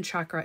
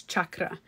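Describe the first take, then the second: First: Chakra with a soft SH start; the first sound of chakra softened to SH; common mispronunciation. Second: Chakra with a hard CH start; crisp CH opening on chakra; corrected pronunciation. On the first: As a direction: say chakra as "SHAH-kra". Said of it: "when people say chakras". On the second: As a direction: say chakra as "CHUK-ra", as in church. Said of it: "It's not even chakra". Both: Shown as a demonstration.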